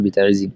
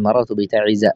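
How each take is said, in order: First: بتعز ends on kasra, bita'izzi; wrong kasra ending. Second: بتعز ends on fatha, bita'izza; correct fatha ending. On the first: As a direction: end بتعز on a clear i, as the wrong form. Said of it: "ولا تقل". (بتعزِّ بالكسر خطأً) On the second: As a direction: say بتعز without tanween, as the right form. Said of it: "تقول". (بتعزَّ بالفتح دون تنوين) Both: Shown as a demonstration.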